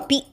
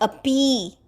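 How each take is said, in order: First: The final vowel is kept short. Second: The final vowel is drawn out long. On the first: The speaker calls it right. "all these are just to be in short notes" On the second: The speaker calls it wrong. "It is not api"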